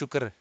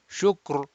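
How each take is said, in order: First: The final r is thin and light. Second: The final r is heavy and rounded. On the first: The speaker calls it wrong. "not shukr" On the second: The speaker calls it right.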